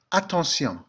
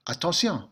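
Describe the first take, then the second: First: Attention said the French way, ah-tahn-SYON with the stress on the end; French pronunciation. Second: Attention repeated in French, nasal an, falling at the end; French pronunciation again. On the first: Teacher modelling the French word for the class, French pronunciation. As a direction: say Attention with a nasal French an and a final on. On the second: Teacher repeating the French word for students, French pronunciation. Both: Shown as a demonstration. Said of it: "takes on a different, uh, pronunciation".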